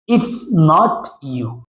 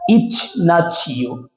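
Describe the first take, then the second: First: The t of not stays a plain t sound. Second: The t of not blends into a ch sound. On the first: The speaker calls it wrong. "you want to pronounce like" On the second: The speaker calls it right. "most correct pronunciation"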